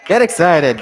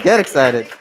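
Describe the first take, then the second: First: Higher, louder call to the crowd; rally the room for the next chair; hype call. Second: Amused follow-up to the crowd; laughing. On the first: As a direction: pump up the audience. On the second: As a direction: repeat it while breaking into a laugh. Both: Real, not acted. Host hyping up next speaker.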